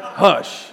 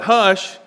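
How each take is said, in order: First: Firm motherly hush; a hint of a stern mother's hush. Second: Firm, higher, louder hush; mock stern Hush, like a mom hushing a child; stern mother's hush. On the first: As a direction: shush them like a mom would. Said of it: "the Greek word was hush". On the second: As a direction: snap the word Hush like a strict mother. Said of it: "And it meant what?".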